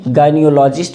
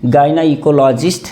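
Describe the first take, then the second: First: The middle 'eco' part is reduced, nearly silent. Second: The middle 'eco' part is fully pronounced. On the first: This is how the word is normally said. "ये silent हो जाता है, गायनियोलॉजिस्ट बोलते हैं" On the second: This form helps remember the spelling. "याद रखना इको silent नहीं होना चाहिए"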